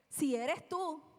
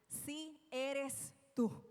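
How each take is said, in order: First: It is said as a question, rising at the end. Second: It is said as a statement, falling at the end.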